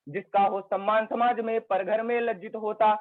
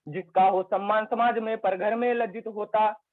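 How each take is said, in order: Both takes have the same delivery.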